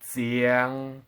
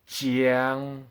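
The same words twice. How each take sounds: First: It begins with a z-like sound. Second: It begins with a j sound. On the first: The speaker calls it wrong. "it's not said as z" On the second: The speaker calls it right. "it's said as j"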